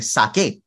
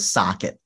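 First: The name is said with an Indian accent. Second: The name is said with an American accent.

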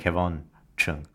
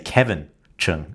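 First: The first name sounds like Kevon. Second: The first name sounds like Kevin. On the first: The speaker calls it right. "It's spelled K-E-V-O-N, not K-E-V-I-N" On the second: The speaker calls it wrong. "did I accidentally slip and say"

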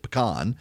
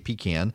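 First: It is said the South Louisiana way. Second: It is said the South Georgia way.

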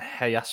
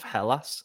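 First: The double L sounds like a Y. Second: The double L sounds like an L. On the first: The speaker calls it wrong. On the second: The speaker calls it right.

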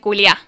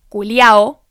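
First: The word is cut short at the end. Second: The word ends with a full final vowel. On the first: "nosotros lo cortamos en el culiá" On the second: "los chilenos tienen una versión del insulto que es culiao"

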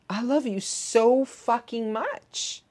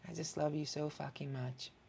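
First: It is said with strong, intense energy. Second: It is said in a soft, subdued tone. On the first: The speaker calls it right. "needs to have an intensity" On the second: The speaker calls it wrong. "I'm not going to say that in a tone that's like"

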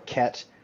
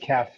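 First: The word ends with a t sound. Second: The word ends with an f sound. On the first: The speaker calls it wrong. "or Ket, which somewhat resembles the name of a real drug" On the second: The speaker calls it right. "it is Kef"

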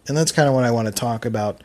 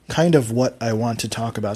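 First: Words run together in relaxed Philly speech. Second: Each word is said clearly and carefully.

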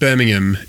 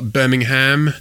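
First: Birmingham is said the English way. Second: Birmingham is said the Australian way. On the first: This is how people in England say it. The speaker calls it right. "it's pronounced Birmingham if you live in England" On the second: This is how Australians say it. The speaker calls it wrong. "Certainly Aussies love to call it Birmingham"

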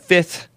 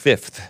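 First: The f sound before the th is dropped. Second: The f sound before the th is pronounced. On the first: The speaker calls it wrong. "It's not" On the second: The speaker calls it right. "With an F. Two Fs in 5th"

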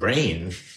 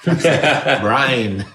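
First: The vowel sounds like 'ay', as in 'rain'. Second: The vowel sounds like 'eye', as in 'line'. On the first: The speaker calls it wrong. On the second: The speaker calls it right.

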